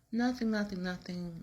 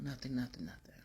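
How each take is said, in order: First: High, quick brush-off; insistent denial. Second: Trailing into a whisper; retold denial, dropped to a whisper. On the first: Retold or imitated. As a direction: wave him off, a touch higher. Wife denies anything is wrong. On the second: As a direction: whisper the nothings away.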